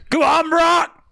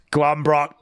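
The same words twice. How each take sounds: First: Cheering on. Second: Said in the usual way. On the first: Acted. Egging Brock on, builds up.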